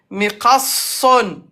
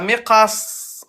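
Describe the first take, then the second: First: The word ends with a full 'un' ending. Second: The word stops right on the 's' sound. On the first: The word is said in the middle of speech. "Donc on appuie" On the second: The word is said at a stop. "On met soukoun"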